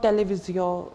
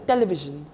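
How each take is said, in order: First: It is said with a French pronunciation. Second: It is said with an English pronunciation. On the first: The speaker calls it wrong. "not television" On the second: The speaker calls it right. "it will be simply tele television"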